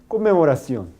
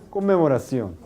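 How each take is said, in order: No difference in how they are said.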